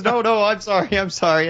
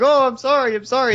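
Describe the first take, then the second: First: Mock apology back. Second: High, louder, flustered sorry; mock flustered apology. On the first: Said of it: "And then he goes". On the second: Imitating Anthro apologising to Golden Fox, high and flustered. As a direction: gush the apology up high and fast. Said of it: "And then you're like".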